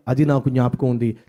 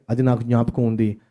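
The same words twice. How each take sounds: The two takes are said the same way.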